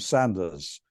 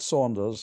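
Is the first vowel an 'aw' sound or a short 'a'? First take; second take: short a; aw. First: The first vowel is a short 'a' sound. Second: The first vowel is an 'aw' sound. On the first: The speaker calls it right. "I'm Sanders" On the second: The speaker calls it wrong. "why do you put a U between me and you? There is no U in my name. I'm not Saunders"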